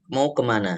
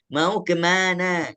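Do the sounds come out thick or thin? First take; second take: thick; thin. First: It is said with ordinary thick, heavy sounds. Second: It is said with the jaw pulled back, thinly. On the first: The speaker calls it right. "itu biasa kita katakan mau kemana. Sebenarnya itu semuanya huruf tebal" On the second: The speaker calls it wrong. "Kalau huruf tipis, maka kita harus semua menarik geraham ke belakang"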